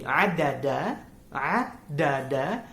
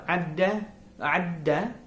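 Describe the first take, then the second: First: "adada" with three clear syllables, a-da-da, the second one slower; full form adada. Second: "adda" with a held a before a stressed da; Arabic "adda", pausing on the a and then landing on da; emphasised adda. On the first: Vlogger showing viewers the unmerged form, each syllable sounded out. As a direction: spell out "adada" evenly, syllable by syllable. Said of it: "well, there are actually three". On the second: Vlogger demonstrating the new verb to viewers, holding the a before da. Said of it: "adda is a little different". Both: Shown as a demonstration.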